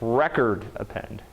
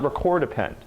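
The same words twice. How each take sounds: First: The stress of record is on the first syllable. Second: The stress of record is on the second syllable. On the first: A record is being appended. The speaker calls it right. "it's appending a record" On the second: Something is being recorded. The speaker calls it wrong. "this is not record append. It's not recording"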